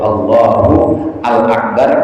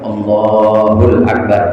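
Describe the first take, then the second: First: The article al is said as a separate syllable. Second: The article is merged into the preceding word.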